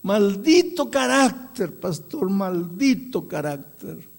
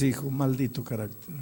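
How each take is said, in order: First: Drawn-out, high mock wail, easing off; acted anguish, loud then fading; imitated crying lament. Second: Said in the usual way. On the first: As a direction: lament it slowly like a remorseful old man. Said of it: "comenzó a llorar y dice".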